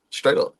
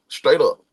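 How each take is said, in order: Both takes have the same delivery.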